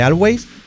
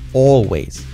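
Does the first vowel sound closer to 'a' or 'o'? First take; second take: a; o. First: The first vowel is an open 'a' sound. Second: The first vowel sounds like an 'o'. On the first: The speaker calls it wrong. "Nada de always" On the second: The speaker calls it right. "Con O"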